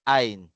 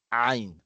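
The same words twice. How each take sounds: First: It starts with a plain vowel sound. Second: It starts with a tight sound from the throat. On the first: The speaker calls it wrong. "yung normal lang, 'pag alif" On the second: The speaker calls it right. "sa lalamunan po manggagaling ang kanyang tunog"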